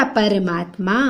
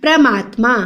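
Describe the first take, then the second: First: "परमात्मा" as par-maat-ma; vowel between p and r in "परमात्मा"; low, soft "परमात्मा" opening on par; correct pronunciation. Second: "परमात्मा" as pra-maat-ma; wrong pronunciation. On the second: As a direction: jam p and r together in "परमात्मा". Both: Shown as a demonstration. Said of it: "परमात्मा नहीं होता".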